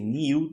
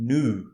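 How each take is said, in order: First: It is said in a British accent. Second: It is said in an American accent. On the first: "that's uh British English" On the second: "in American English, they say new"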